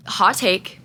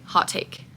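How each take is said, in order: First: Said in the usual way. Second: Hot take repeated in a soft whisper. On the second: Real, not acted. Repeating hot take to viewers in a whisper. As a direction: whisper it again like a secret.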